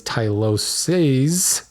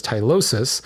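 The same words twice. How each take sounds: First: "tyloses" slow, with a long drawn-out "seez"; plural pronunciation. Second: "tylosis" with a short final "sis"; singular pronunciation. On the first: Host shows the plural ending, carefully pronounced. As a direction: stretch the end of "tyloses" into "seeez". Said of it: "and the plural is tyloses". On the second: Host settles the pronunciation for listeners, carefully pronounced. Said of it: "the singular is tylosis". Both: Shown as a demonstration.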